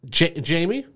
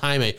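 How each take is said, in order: First: The name is said in an Americanized way. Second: The name is said without Americanizing it. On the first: The name is being dismissively anglicized. The speaker calls it wrong. "Americanizing it" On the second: This is the name as its owner says it. The speaker calls it right. "He then corrects her"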